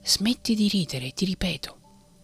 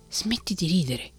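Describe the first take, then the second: First: Voiced menace breaking the whisper; threatening shout. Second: A touch of irritation, still hushed; mildly cross scolding; a hint of a vexed old man; peeved. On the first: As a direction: raise it to a mock threat. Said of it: "urlò con voce minacciosa". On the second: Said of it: "disse Geppetto impermalito".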